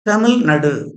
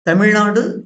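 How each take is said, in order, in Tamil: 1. 'na' அசையில் குறில் உயிரெழுத்து உள்ளது. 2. 'na' அசையில் நெடில் உயிரெழுத்து உள்ளது.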